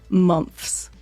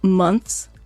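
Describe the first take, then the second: First: The th sound is replaced by f. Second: The word has a normal th sound.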